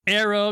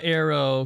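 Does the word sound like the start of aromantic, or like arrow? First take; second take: aromantic; arrow. First: It sounds like the start of aromantic. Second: It sounds like the word arrow. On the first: The speaker calls it right. "because it's aromantic" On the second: The speaker calls it wrong. "not arrow"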